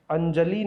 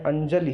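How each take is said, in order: First: अंजलि ending in a long "lee"; wrong long final vowel. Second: अंजलि ending in a brief "li"; short final vowel. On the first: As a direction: stretch the end of अंजलि. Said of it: "अंजलि है". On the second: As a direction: clip the last vowel of अंजलि. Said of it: "अंजलि नहीं है". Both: Shown as a demonstration.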